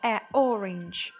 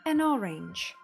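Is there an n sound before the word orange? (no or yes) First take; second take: no; yes. First: The article is a plain vowel with no n. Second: An n sound links the article to orange. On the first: The speaker calls it wrong. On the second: The speaker calls it right.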